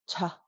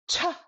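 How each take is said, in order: First: The syllable is said with a low tone. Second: The syllable is said with a high tone. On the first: "just right, low tone" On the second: "too hard, but still very tall papa bear"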